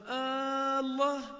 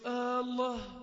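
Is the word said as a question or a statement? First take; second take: question; statement. First: It is said as a question. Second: It is said as a firm statement. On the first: Asks the other to confirm it by God. "رجع سأله بهمزة الاستفهام" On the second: Affirms it by God. "هذه الهمزة همزة إقرار إخبار"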